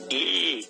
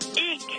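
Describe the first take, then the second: First: It sounds flirty. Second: It sounds happy.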